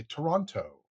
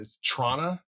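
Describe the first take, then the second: First: "Toronto" with every syllable and the second T sounded; non-local pronunciation. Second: "Trana" smashed together into one word; local Toronto pronunciation. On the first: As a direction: say "Toronto" carefully, like an out-of-towner. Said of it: "when they're not local when they say". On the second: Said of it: "you just sort of smash it together". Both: Shown as a demonstration.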